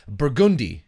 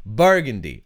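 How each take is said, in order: First: "Burgundy" with the stress on the wrong syllable; mispronounced Burgundy. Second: "Burgundy" said properly, stress on BUR; corrected Burgundy. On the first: Real, not acted. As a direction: stumble over "Burgundy", clumsily. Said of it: "saying Burgundy very badly". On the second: Shown as a demonstration. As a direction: say "Burgundy" right, stress on the first syllable. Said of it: "putting the emphasis on the wrong".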